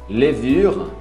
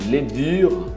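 No difference in how they are said.

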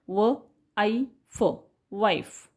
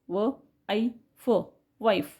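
The two takes are said the same way.

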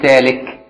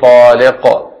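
First: It starts with a plain t, ends in k. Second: The final q is strong with an echo. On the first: It is not a divorce word. "بالتاء كده" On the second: The divorce takes effect whatever the intent. "ويقلقل القاف كده"

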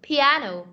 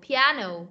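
The two takes are said the same way.

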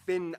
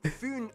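First: The name is pronounced the English way. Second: The name is pronounced the Danish way. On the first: The speaker calls it wrong. "not Finn Island" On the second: The speaker calls it right. "I'm going to pronounce the location names in their proper Danish context"

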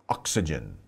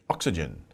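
First: The word is said fast with syllables reduced. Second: The word is said fast with syllables reduced.

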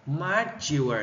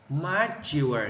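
First: The stress is on the second syllable. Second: The stress is on the second syllable.

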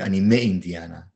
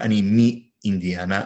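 First: The word before Indiana has an 'e' vowel. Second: The word before Indiana has an 'i' vowel. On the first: The speaker calls it right. "I would say" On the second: The speaker calls it wrong. "instead of saying"

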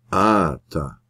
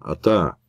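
First: The stress is on the first syllable, vowel long. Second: The stress is on the last syllable, vowel short. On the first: The word stands at the end of a sentence. "dan verschuift het accent naar een naar voren. Korte klank wordt verlengd" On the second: The word stands inside a sentence. "in plaats van"

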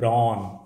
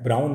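First: The vowel is a steady open 'aw' sound. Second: The vowel glides like 'ow' in brown. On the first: The speaker calls it right. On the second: The speaker calls it wrong. "ब्राउन नहीं है"

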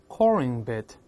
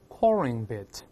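No difference in how they are said.

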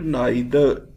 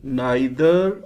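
First: The word is said the British English way. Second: The same.

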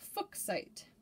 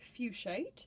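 First: The first vowel is short, as in books. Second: The first vowel is a long U sound. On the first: This follows the original surname it is named after. "technically speaking, it's supposed to be pronounced Fuchsite" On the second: This is the common everyday pronunciation. "typically pronounced fuchsite with a long U and a long I"

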